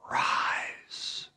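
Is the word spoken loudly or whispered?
whispered. The word is whispered softly without full voice. "Maybe he whispered"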